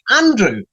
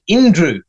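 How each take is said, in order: First: The name begins with an 'a' vowel. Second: The name begins with an 'i' vowel. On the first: The speaker calls it right. "It says the letter A" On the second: The speaker calls it wrong. "you pronounce it Indrew"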